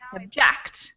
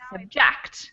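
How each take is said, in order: First: The stress is on the second syllable. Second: The stress is on the second syllable.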